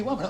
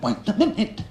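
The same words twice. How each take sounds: First: Said in the usual way. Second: Higher MINUTE with a rising end; insistent interruption. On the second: Retold or imitated. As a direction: mimic her insisting, lifting the voice on "minute". Woman's interruption repeated more emphatically.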